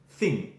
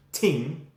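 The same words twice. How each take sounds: First: Said in the usual way. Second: TING with a hard T in place of TH; TING, the Irish way, T replacing TH. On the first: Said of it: "instead of thing". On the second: Shown as a demonstration. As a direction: say TING slowly, starting on a clean T. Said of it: "They too will say".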